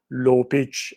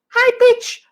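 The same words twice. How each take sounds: First: Dropped low demo voice; low pitch. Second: Very high, louder demo voice; high pitch. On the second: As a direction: leap way up in pitch. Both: Shown as a demonstration.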